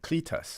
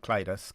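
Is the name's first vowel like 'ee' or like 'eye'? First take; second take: ee; eye. First: The first vowel sounds like 'ee'. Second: The first vowel sounds like 'eye'. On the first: The speaker calls it right. "Cletus, not Clytus" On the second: The speaker calls it wrong. "not Clytus"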